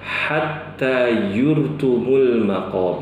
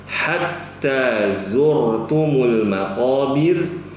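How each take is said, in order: First: The second word begins with a y sound. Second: The second word begins with a z sound. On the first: The speaker calls it wrong. "mereka bacanya" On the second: The speaker calls it right. "ketika baca"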